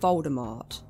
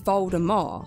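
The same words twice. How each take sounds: First: The name ends with a T sound. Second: The name ends without a T sound. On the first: The speaker calls it wrong. "I've never heard it pronounced any other way" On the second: The speaker calls it right. "supposed to be pronounced without the T at the end"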